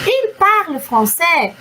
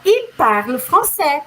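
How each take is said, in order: First: IL PARLE FRANÇAIS slow, asked as a question; question intonation. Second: IL PARLE FRANÇAIS slow, falling at the end; statement intonation. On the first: French teacher demonstrating question tune, "il parle français" slowly asked. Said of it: "estou usando a entonação de question". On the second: French teacher switching to affirmation, "il parle français" slow falling statement. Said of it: "entonação diferente que indica uma afirmação". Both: Shown as a demonstration.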